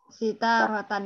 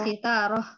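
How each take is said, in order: First: The word ends with a nasal 'tan' syllable. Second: The word ends with a breathy 'h' sound. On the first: The reader goes on without stopping. "sitaro sitarotan ya" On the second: The reader stops at this word. "kalau mau diwakafkan tidak ada istilahnya sitarota"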